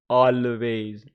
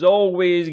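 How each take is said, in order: First: The first vowel sounds like 'a'. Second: The first vowel sounds like 'oh'. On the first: The speaker calls it wrong. "it's not always" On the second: The speaker calls it right. "it's kind of oh"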